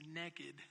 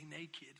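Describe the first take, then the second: First: The word is said in a Southern accent. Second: The word is said in a standard accent. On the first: "You say naked" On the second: "When you're from the South, you don't say naked"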